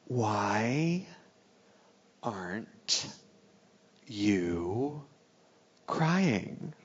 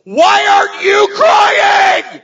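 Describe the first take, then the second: First: Very soft, slow words with long gaps; hushed, drawn-out imitation of a bride at the altar; acted whisper. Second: Very high, loud, drawn-out acted shriek; hammed-up bawling accusation; hysterical scream. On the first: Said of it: "she whispers to me something". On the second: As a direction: scream the question back through mock tears. Throws her question back, screaming.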